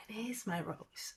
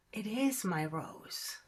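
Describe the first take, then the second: First: Soft unvoiced whisper, softer. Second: Said in the usual way. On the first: Prince realizing his rose is special, whispered. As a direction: breathe it out as a whisper.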